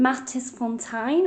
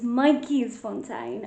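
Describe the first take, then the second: First: The first part sounds like 'mattis'. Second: The first part sounds like 'mikeys'. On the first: The speaker calls it wrong. "my pronunciation is terrible" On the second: The speaker calls it right. "but it's Mikey'sfontein"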